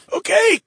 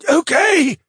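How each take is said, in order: First: High strained choking plea; choked out. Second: High choked plea, falling. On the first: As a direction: squeeze it out while being choked. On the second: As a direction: gasp it out under a chokehold. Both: Acted. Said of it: "the mage choked out".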